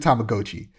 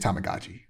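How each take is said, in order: First: The second syllable sounds like 'go'. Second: The second syllable sounds like 'ga'. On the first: This is the original Japanese form. The speaker calls it right. "apparently Tamagotchi" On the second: This is the way most people say it. The speaker calls it wrong. "Most people say Tamagotchi"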